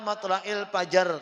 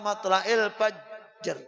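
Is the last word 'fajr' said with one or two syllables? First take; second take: two; one. First: A vowel is inserted, making 'fajar' two syllables. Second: The word ends 'fajr' with no inserted vowel. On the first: The speaker calls it wrong. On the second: The speaker calls it right.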